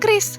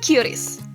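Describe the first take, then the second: First: It is said as one syllable, kris. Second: It is not said as one syllable kris. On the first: The speaker calls it right. "dibacanya kris" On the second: The speaker calls it wrong. "bukan QRIS"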